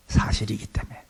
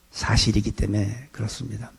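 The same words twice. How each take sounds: First: Soft whisper of the key point. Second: Said in the usual way. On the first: Shown as a demonstration. Pastor whispering the reason to the congregation. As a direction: whisper 사실이기 때문에 like a secret.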